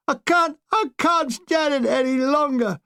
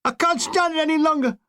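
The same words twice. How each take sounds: First: High, slow repeated desperate cry; screaming breakdown. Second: High, desperate scream. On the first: Shell-shocked young infantryman, slow desperate scream. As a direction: fall apart, pleading. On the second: Shell-shocked young infantryman, high desperate scream. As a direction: break down in a scream. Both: Retold or imitated. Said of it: "I suddenly heard a scream".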